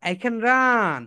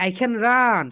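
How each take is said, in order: Both takes have the same delivery.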